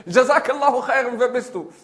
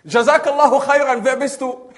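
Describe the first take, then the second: First: High, loud repeat, easing off; echoed thanks. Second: High, loud friendly call; called-out thanks. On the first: Forest voice answers the man, echoed call. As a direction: send the blessing back. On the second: Man to unseen stranger in forest, loud call. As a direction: project the blessing across the woods. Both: Acted.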